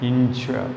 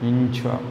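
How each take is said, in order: Both takes have the same delivery.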